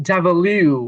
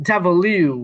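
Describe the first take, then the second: No difference in how they are said.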